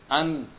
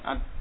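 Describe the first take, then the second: First: A short nasal hum lingers at the end. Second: The sound cuts off abruptly at the end. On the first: The speaker calls it right. "Tapi ada gunahnya sedikit" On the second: The speaker calls it wrong. "jadi enggak langsung mati suaranya. ... Enggak seperti itu"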